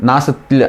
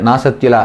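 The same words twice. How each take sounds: The two takes are said the same way.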